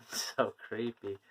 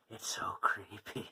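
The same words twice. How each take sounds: First: Said in the usual way. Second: Breathy whispered shiver; creepy whisper. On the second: Real, not acted. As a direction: whisper it like it gives you chills.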